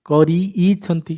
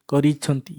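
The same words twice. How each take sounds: First: କରିଇଛନ୍ତି said very slowly, the ଇଛନ୍ତି ending pulled apart and held; teacher to pupils, spelling out the ending slowly and clearly; stretched suffix. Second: Said in the usual way. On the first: Shown as a demonstration. Slow stretched ending for the class. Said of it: "ସେଟା ଉଚ୍ଚାରିତ ହେଉଛି". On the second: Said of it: "ଇଛନ୍ତି ଉଚ୍ଚାରିତ ହେଉଛି".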